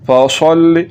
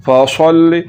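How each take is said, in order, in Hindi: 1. s की आवाज़ भारी और भरी हुई है। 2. s की आवाज़ भारी और भरी हुई है।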